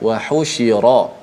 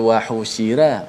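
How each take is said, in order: First: The r sound is heavy and full-mouthed. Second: The r sound is light and thin. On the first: The speaker calls it right. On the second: The speaker calls it wrong. "tak boleh baca"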